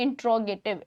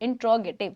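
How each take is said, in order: The two takes are said the same way.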